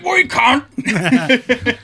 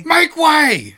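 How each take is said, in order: First: Very slow, stretched yell, higher and louder; drawn-out mock shout. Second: Sudden high barked order, much louder; mock shout. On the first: Mock guard insulting the crowd, slow stretched yell. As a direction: drag out each word like a mock guard. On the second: Mock guard shouting at a crowd, clear the path. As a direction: yell it like a guard shoving through.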